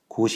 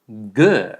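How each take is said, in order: First: The word is said with Korean sounds. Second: The word is said with English sounds. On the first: The speaker calls it wrong. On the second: The speaker calls it right.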